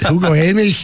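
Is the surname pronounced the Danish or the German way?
German. The surname ends with a German ch sound. "also dann Hugo Helmich"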